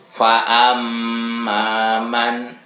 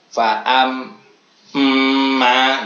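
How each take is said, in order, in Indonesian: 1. Frasa itu mengalir terus tanpa jeda apa pun. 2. Frasa itu terputus oleh jeda setelah faam. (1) "runtut ya. Ini ya, tanpa adanya jeda ataupun saktah" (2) "Tidak boleh faam ma, tidak boleh, itu tidak bertubi-tubi ya"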